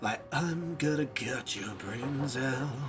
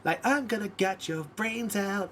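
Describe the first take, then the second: First: It is said in a sinister, menacing tone. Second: It is said in a sweet, happy tone. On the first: "you either have to say sinisterly" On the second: "in a beautiful tone"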